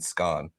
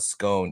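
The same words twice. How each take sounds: First: Scone is said the Scottish way. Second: Scone is said the American way.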